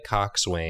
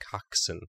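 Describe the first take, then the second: First: Every letter is sounded, like cox-swain. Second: The ending is reduced, like cox-sun. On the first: The speaker calls it wrong. "It's spelled like coxswain" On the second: The speaker calls it right. "But it's pronounced coxswain"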